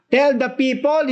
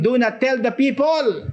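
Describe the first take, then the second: First: "Tell the people" high, punched on "Tell"; emphatic command. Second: "Do not tell the people" set against the real order, high and falling; contrasting wrong version. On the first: Preacher contrasting the angel's real order, emphatic. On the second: Preacher contrasting what the angel did not say, mock-wrong. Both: Shown as a demonstration. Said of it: "hindi niya sinabing".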